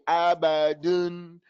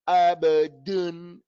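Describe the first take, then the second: First: The last vowel is a dull, lax 'un'. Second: The same.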